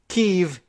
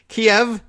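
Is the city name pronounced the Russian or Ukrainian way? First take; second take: Ukrainian; Russian. First: The name is given its Ukrainian pronunciation. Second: The name is given its Russian pronunciation. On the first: "Ukrainian pronunciation, preferred by Ukrainians" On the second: "Russian pronunciation"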